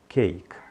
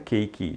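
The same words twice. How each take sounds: First: The word ends cleanly on the k. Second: An extra vowel follows the final k. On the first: The speaker calls it right. "diga cake" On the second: The speaker calls it wrong. "não coloque esse E, não é pronunciado. Então não diga cake"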